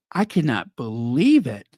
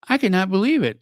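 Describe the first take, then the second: First: Said in the usual way. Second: Higher, more emphatic disbelief on "believe". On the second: Real, not acted. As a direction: lift "I cannot believe it" in real astonishment. Repeats line, second more emphatic.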